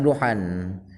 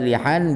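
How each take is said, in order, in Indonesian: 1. Vokal pertama adalah bunyi u. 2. Vokal pertama adalah bunyi i. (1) "bisa dhammah" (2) "Lamnya bisa di di kasrah"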